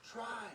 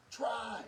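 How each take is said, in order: First: Said in the usual way. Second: "Try." said louder and punched; emphatic plea. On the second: Real, not acted. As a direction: push "Try." hard, like a demand. Urging couples to keep trying.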